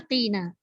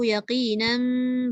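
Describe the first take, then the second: First: The word ends on a plain vowel. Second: The word ends with an m sound. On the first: The reader stops after this word. "itu memang kena bunyi yaqina" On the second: The reader joins it to the next word. "Kalau nak sambung tak apa"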